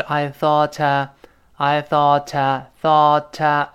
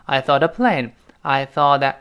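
First: "thought" linked to "a" as "thaw-tuh", crisp T; careful linking. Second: "thought a" linked as "thaw-da"; lightly voiced T. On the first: Teacher showing the theoretical linking, clear T in "thought a". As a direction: link "thought a" slowly with a clear T. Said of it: "但是理论上是这样". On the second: Teacher modelling fast speech, "thought a" becoming "thaw-da". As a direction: soften the T of "thought" into a light D before "a". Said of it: "最后那个t跟a连读是轻轻会浊化一下". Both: Shown as a demonstration.

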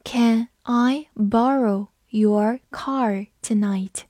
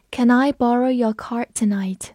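First: Slow, deliberate sentence reading. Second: Said in the usual way. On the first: Shown as a demonstration. Teacher reading the sentence slowly. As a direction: read it slowly for learners. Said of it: "把后一句也读一下". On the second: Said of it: "读一下".

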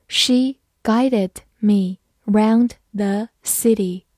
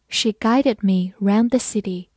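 First: Very slow, careful read-through. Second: Said in the usual way. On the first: Shown as a demonstration. Teacher models the sentence slowly for students, slow. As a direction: stretch it out word by word. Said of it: "好，慢慢来读". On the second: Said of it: "慢慢来读".

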